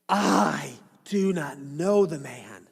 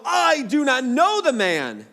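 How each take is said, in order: First: Slow, dragged-out denial with a hint of strain; cursing denial. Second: Louder, higher, slowed denial under oath; emphatic denial. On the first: Peter denies Jesus a third time, slow and heavy. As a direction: draw it out as he curses himself. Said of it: "began to evoke a curse on himself". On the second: Acted. Peter denies Jesus with an oath, loud and emphatic. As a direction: swear it hard, leaning on know. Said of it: "he denied it with an oath".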